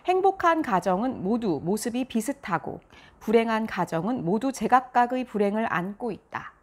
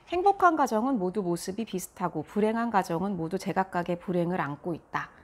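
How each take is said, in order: First: Read with a wide mouth, sounds clearly separated. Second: Read with a small mouth, sounds blurred together. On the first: The speaker calls it right. "입을 크게 벌리고 자음 모음을 좀 명확하게 구별해서" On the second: The speaker calls it wrong. "입을 작게 벌리고 읽었을 때"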